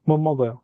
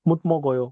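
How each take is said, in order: First: The t blends into m, spoken quickly. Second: The t is kept, spoken very slowly. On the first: "মোমোগয়, মুতমগয় না" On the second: "একদম আস্তে বললে হয়তো মুতমগয় এরকম শোনায়"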